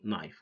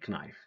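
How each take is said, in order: First: The K at the start is silent. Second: The K at the start is pronounced. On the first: The speaker calls it right. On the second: The speaker calls it wrong. "Don't say"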